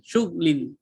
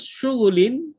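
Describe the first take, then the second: First: No vowel is sounded between gh and l. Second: A vowel is sounded between gh and l. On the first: "Dimatikan baris uh, ghin" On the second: "Lafaz syughulin dapat pula dibaca dengan syughlin"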